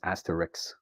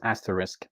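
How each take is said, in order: First: The word ends with a 'ks' sound. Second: The word ends with an 'sk' sound. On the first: "you would often hear it as asterix" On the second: "you can carefully pronounce it as asterisk"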